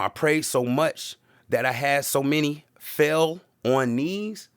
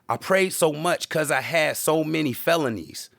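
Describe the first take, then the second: First: It is said slowly. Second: It is said at normal speed.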